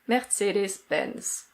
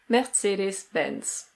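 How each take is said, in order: First: It is said with a German pronunciation. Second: The same.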